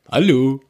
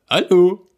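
First: The voice is pitched too deep. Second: The voice is pitched higher.

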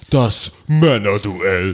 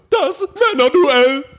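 First: It is said in a plain, ordinary voice. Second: It is said in a loud, showy announcer voice.

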